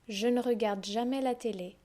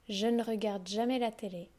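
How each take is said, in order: The two takes are said the same way.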